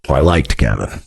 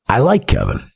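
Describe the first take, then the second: First: Low, deliberate "liked" in the past tense; pointed correction. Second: Said in the usual way. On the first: Real, not acted. Streamer correcting himself about a former friend, "liked" low and pointed. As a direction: drop much lower, marking "liked" as over.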